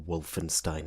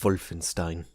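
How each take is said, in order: First: The name begins with a W sound. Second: The name begins with a V sound. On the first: "I'll go Wolfenstein instead" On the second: "that's the actual pronunciation"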